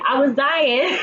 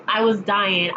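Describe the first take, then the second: First: Said through real laughter; cracking up mid-sentence; laughing. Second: Said in the usual way. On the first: Real, not acted. Laughing at Issa slipping.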